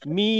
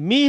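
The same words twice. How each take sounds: First: The vowel is drawn out long. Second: The vowel is short.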